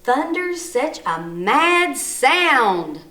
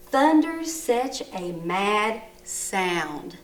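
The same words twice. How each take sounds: First: Big, slow exclamation with MAD and SOUND swooping high and loud; loud, drawn-out excited sentence reading. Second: Slow, measured reading with SOUND falling like a period; calm full stop after SOUND, pitch settling down; voice going down. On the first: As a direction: read it like an exclamation mark, punching MAD and SOUND. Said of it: "What did my voice do at the end? It went up". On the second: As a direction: read it as a finished statement, dropping on SOUND. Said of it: "listen how my voice goes down". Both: Shown as a demonstration.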